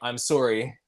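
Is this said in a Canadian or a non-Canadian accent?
Canadian. It is said in a Canadian accent. "they say"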